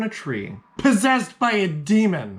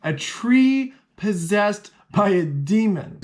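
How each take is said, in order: First: "possessed by a demon" punched higher; dramatic reveal. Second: "tree", "possessed", "demon" each drawn out high; slow emphatic repeat. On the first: Dramatic reveal of a crazy story. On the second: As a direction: spell out the shocker, punching TREE, POSSESSED and DEMON slowly. Emphatic repeat after "heard me right. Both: Shown as a demonstration.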